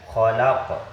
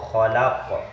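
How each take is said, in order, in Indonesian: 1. Kata ini berakhir pada konsonan yang memantul. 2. Kata ini berakhir pada konsonan yang memantul.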